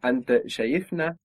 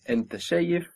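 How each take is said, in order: First: In شايفنا the accent moves one syllable down, fast; stress moved down. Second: Accent on شايف in أنت شايف; stress shift. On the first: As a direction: put the stress later in شايفنا. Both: Shown as a demonstration. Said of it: "the accent moves one down".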